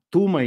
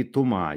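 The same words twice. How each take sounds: First: «Тума» stressed on ТУ, pitched high; «Тума» as ТУ-ма, first beat raised; stress on first syllable. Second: «Тума» stressed on the final МА; stress on last syllable. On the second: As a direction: put the beat on the end of «Тума». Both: Shown as a demonstration. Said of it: "где ударение".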